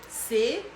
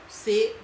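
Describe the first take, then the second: No difference in how they are said.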